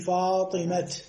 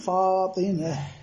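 First: The word ends in a clear t sound. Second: The word ends in a soft h sound. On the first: "يقف بالتاء مع حذف الحركة" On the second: "الوقف بإبدالها هاء"

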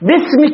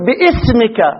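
First: The glottal stop is dropped in connected speech. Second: The glottal stop is pronounced in connected speech. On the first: The speaker calls it right. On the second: The speaker calls it wrong.

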